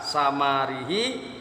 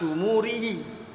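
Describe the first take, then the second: First: The first two vowels are 'a' sounds. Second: The first two vowels are 'u' sounds. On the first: "Kalau dibaca fathah" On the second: "kalau dibaca domah"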